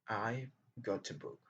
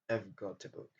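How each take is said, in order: First: I've is said in full at normal speed. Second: I've is reduced to a quick schwa sound.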